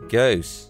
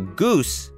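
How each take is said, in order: First: The oo vowel is flattened. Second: The oo vowel is said in the standard way.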